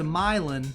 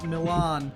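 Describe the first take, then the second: First: It is said the local Tennessee way. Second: It is said the northern way. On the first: This is how local family members say the town name. The speaker calls it wrong. "you go right down to Milan" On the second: This is how the speaker, said to talk northern, says it. The speaker calls it right. "and I'm like Milan"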